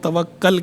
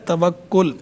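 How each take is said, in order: First: The last syllable has an 'a' vowel. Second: The last syllable has an 'u' vowel. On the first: It is a command to trust. The speaker calls it wrong. "इसे गलत तौर पर हमारे यहाँ लोग तवक्कल कहते रहते हैं" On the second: It names the noun, trust. The speaker calls it right. "ये दोस्त लफ्ज़ होता है तवक्कुल"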